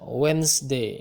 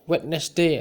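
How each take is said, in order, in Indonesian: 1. Kata itu disingkat menjadi dua suku kata. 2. Setiap huruf dalam kata itu diucapkan. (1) "Yang betul itu adalah Wednesday" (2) "tidak mungkin kita mengucapkannya Wednesday, ya, salah kita itu namanya"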